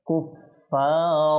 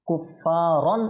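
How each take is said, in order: First: The word ends with a long 'aa' vowel. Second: The word ends with an 'an' sound. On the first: The speaker calls it right. "একালিফ টেনে আপনি ওয়াকফ করতে হবে" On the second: The speaker calls it wrong. "এভাবে বলা যাবে না"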